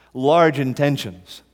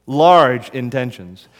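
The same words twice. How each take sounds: First: Large stressed, slowed down. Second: Large hit louder and slower; emphatic repeat. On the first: Preacher repeating a key phrase, stress on large. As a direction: lean on large, drawn out. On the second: Preacher repeating for emphasis, Large louder. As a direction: punch the word Large, slow. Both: Shown as a demonstration.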